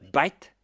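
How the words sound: It begins with a B sound, Indian English style.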